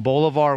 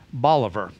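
First: The name is said the usual, familiar way. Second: The name is said a local, different way. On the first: "like Simon Bolivar" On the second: "was pronounced Bolivar"

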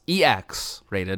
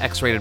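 First: The first letter is said slowly and clearly. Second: The first letter is said quickly and unclearly.

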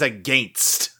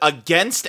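First: It is said with a Canadian-style vowel. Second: It is said with the speaker's usual vowel. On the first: "they would say the word against as against" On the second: "the word against"

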